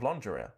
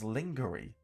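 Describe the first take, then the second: First: The word is said in its usual pronunciation. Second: The word is sounded out as it is spelled. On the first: The speaker calls it right. "instead of lingerie" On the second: The speaker calls it wrong. "completely wrong and phonetically as lingerie"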